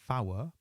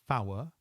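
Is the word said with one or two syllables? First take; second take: two; two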